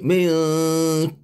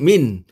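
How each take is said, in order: First: The final n is hidden and nasalized. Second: The final n is pronounced clearly. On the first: The speaker calls it right. "disamarkan menjadi bunyi milk" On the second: The speaker calls it wrong. "dia tak bunyi min"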